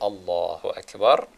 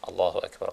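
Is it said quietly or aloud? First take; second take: aloud; quietly. First: It is said aloud, in full voice. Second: It is said quietly, under the breath.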